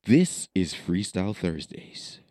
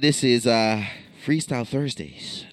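First: It is said in a changed voice. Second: It is said in his normal voice.

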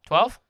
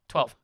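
First: The voice rises at the end like a question. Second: The voice falls at the end like a statement. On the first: The roll result is being checked to confirm it. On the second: The roll result is being reported.

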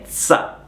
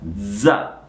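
First: The z sound is voiceless, like ts. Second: The z sound is voiced, with buzzing. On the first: The speaker calls it wrong. "Non è una Z sorda, non è za" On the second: The speaker calls it right. "è una Z sonora. Devono vibrare qui le corde vocali"

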